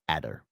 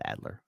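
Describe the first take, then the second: First: The name is said without an L sound. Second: The name is said with an L sound. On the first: The speaker calls it right. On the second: The speaker calls it wrong. "I don't know why I put the L in there"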